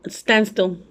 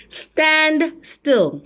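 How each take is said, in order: First: Said in the usual way. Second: "Stand still" drawn out and pitched high; high, lingering stress on "Stand still"; emphatic repeat. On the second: Real, not acted.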